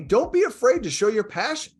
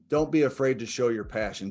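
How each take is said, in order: First: It is said with lively, passionate energy. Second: It is said flatly, with little energy. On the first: The speaker calls it right. "that's a lot different than me saying" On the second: The speaker calls it wrong. "let me go back and repeat this"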